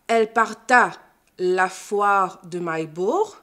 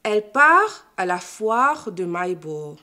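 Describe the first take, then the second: First: «parta la» avec le t prononcé, lentement; liaison fautive. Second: «part à» sans le t; sans liaison. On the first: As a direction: fais sonner le t de «part». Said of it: "On ne dit pas". (mauvaise liaison en t) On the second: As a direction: coupe net après «part». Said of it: "La liaison après le verbe est également interdite". (prononciation correcte sans liaison) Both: Shown as a demonstration.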